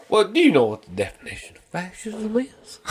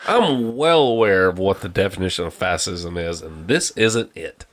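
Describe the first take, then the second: First: Higher-pitched mock know-it-all question; mocking retort. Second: Lower, measured retold reply; exasperated reply. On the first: Retelling a vaccination argument, mocking retort. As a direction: imitate a challenger, pitched up. Retold challenge from the other person. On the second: Answering the fascism question, exasperated reply. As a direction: pitch it down, firmly informed.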